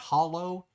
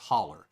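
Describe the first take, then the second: First: The word ends with an 'oh' sound. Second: The word ends with an 'er' sound. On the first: The speaker calls it wrong. "If you pronounce that hollow, you'll get kicked out" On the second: The speaker calls it right. "it's spelled H O L L O W, but it's pronounced holler"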